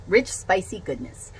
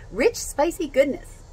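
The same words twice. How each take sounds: First: Said in the usual way. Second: Rich, spicy goodness said higher and slower, savoring each word. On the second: Shown as a demonstration. Repeating the phrase to viewers, higher and savoring. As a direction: relish Rich, spicy goodness like a tasty ad line.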